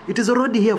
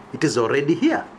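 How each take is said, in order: First: Higher and louder, hammering the point home; emphatic declaration. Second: Said in the usual way. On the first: Real, not acted. To his listeners about the dictatorship, emphatic raised declaration. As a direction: drive it home to the crowd.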